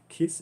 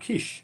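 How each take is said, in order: First: The name ends with an s sound. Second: The name ends with an sh sound. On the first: The speaker calls it wrong. "It's not Kiss" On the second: The speaker calls it right. "it's pronounced Kish"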